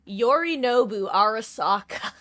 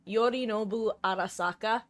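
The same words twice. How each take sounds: First: The name is said with English-style pronunciation. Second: The name is said with Japanese-style pronunciation. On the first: "she drops Yorinobu Arasaka" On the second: "how proper the pronunciation was"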